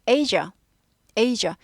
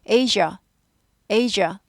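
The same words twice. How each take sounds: The two takes are said the same way.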